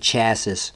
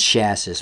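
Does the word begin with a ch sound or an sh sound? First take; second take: ch; sh. First: The word begins with a ch sound. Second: The word begins with an sh sound. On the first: The speaker calls it wrong. "People say it wrong all the time. They say chassis" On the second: The speaker calls it right. "It's chassis, man"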